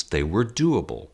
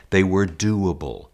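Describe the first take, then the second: First: Said in the usual way. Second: They were doable said slower, the word They leaned on; slow down and press the word They in They were doable; stress on They. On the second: Shown as a demonstration. Acting teacher repeats the key point for his students, slow and pressed. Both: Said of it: "That's the most important thing".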